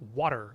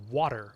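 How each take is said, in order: First: The middle consonant sounds like a soft D. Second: The same.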